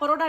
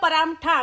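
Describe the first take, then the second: First: The vowel after 'p' is an 'o' sound. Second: The vowel after 'p' is an 'a' sound. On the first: This is how other people say it. "અમે પરોઠા પરોઠા નહીં બોલતા" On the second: This is how the speaker's community says it. "અમે બોલીએ છીએ પરાઠા"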